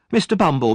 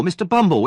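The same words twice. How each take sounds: First: High, loud first call. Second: Higher, loud second call; more desperate call. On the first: Noah calls out to the beadle at the workhouse, loud. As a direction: shout his name to get attention. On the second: Noah calls the beadle a second time, higher and frantic. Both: Acted. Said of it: "Noah cried".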